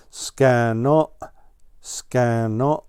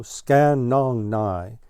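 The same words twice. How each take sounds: First: "Scan nong" clipped short, ending cut off. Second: "scan nong nigh" drawled slowly, the end stretched. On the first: Shown as a demonstration. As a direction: snap the end of "scan nong" off quickly. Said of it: "cut it off short at the end". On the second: A narrator's reading. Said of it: "Don't drawl like that".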